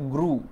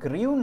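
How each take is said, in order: First: The vowel is a plain 'oo' without glide. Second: The vowel has a 'y' glide, like 'yoo'. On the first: The speaker calls it right. "বরং এটা গ্রু" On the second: The speaker calls it wrong. "এটা গ্রিউ না"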